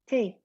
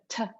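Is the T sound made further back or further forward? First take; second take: forward; back. First: A soft T with the tongue near the teeth. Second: A harder T made further back, more air. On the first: The speaker calls it right. "much softer than the English T" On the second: The speaker calls it wrong. "which is just further back"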